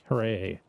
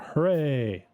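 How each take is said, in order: First: It is said flatly, with little energy. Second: It is said with more energy and enthusiasm.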